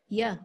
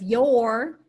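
First: The word has a weak 'uh' vowel. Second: The word has a full vowel. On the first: "if you're condensing the word, it might become ya" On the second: "Instead of your"

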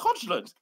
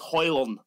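First: The name is said with a D sound. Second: The name is said without a D sound. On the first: The speaker calls it wrong. "I'm waiting for a Sky Sports News presenter" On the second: The speaker calls it right. "You don't pronounce the D"

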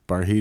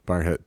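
First: The second syllable sounds like 'heed'. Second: The second syllable sounds like 'head'. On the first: This is the standard pronunciation. "Barheed is the correct pronunciation" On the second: This is how the locals say it. "but the locals say Barhead"

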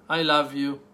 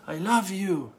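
First: It is said in a plain, sincere tone. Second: It is said in a warm, heartfelt tone. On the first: The speaker truly loves the listener. "One, that you truly love me" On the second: The speaker loves the listener with all their heart. "Second, that you love me with all your heart"

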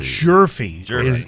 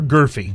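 First: The name begins with a J sound, like Murphy. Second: The name begins with a hard G and 'ur'. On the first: The speaker calls it right. "Jerfy is the right way to say it" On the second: The speaker calls it wrong. "Is it Gorfie or Gurfy?"

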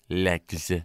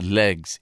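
First: The word ends in a 'ks' sound. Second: The word ends in a 'gz' sound. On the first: The speaker calls it right. "Lex, L-E-X, Lex" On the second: The speaker calls it wrong. "it's not legs"

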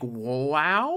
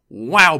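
First: The voice rises at the end. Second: The voice falls at the end.

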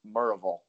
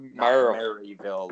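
First: The name is said the local East Tennessee way. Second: The name is said the way outsiders say it. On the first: The speaker calls it right. "It's more Maryville, ... if you want to say it like a true East Tennessean" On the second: The speaker calls it wrong. "not Maryville, like I was saying"

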